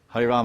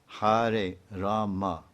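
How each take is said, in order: First: The final vowel of Rama is dropped. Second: The final vowel of Rama is pronounced. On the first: The speaker calls it wrong. "This is not Mahamantra. It's cut" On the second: The speaker calls it right.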